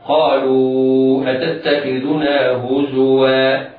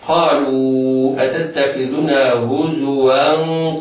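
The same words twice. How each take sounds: First: The word ends in a long a vowel. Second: The word ends in a hidden nasal sound. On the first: The reading stops at this word. "فإذا وقفنا نبدل التنوين ألفا هكذا" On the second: The reading continues into the next word. "فينطق تنوين وصلا هكذا"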